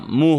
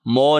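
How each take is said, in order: First: The vowel is a clear 'u' sound. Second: The vowel is an open 'o' sound. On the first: The speaker calls it right. "मुँह होता" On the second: The speaker calls it wrong. "मो नहीं होता"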